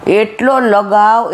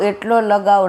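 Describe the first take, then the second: First: એટલો drawn out slowly and leaned on, falling; slow stretched એટલો with a heavy fall; slow emphatic stress. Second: Said in the usual way. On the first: Retold or imitated. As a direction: dwell on એટલો to show how much. Stressing how thick the coating was.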